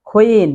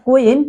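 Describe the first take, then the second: First: 'queen' with breathy k, falling; corrected pronunciation. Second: 'queen' as 'ku-in', hard k; wrong pronunciation. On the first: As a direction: model 'queen' as 'khween'. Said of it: "it's queen". (শুদ্ধ উচ্চারণে 'queen', খুইন) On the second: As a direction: demonstrate 'queen' without any puff on the k. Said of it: "It's not queen". (ভুল উচ্চারণে 'queen', কুইন) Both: Shown as a demonstration.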